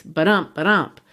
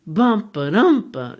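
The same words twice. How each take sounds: First: Ba-DUMP, weight on "dump"; iambic heartbeat. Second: BUMP first, slow and lifted; trochaic reversed beat. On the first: Teacher showing a man's iambic rhythm. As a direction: tap the second beat harder. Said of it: "a man speaks". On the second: Teacher showing the witches' reversed rhythm. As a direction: start hard on "bump", then ba-dump. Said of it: "It's the opposite". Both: Shown as a demonstration.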